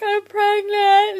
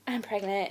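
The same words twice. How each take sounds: First: High, loud, drawn-out mock sob; retold tearful wail. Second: Softer, lower, hesitant admission; subdued confession. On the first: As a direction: wail it slowly, imitating losing the fight with tears. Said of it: "trying not to cry". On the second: Retold or imitated. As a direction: quietly own up, reenacting held-back tears. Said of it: "about to break out crying".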